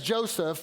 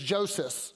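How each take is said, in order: First: The name is said in its usual English form. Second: The name is said in its Greek form. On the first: "We would say it as Joseph" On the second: "The Greek way of saying it is Joseph"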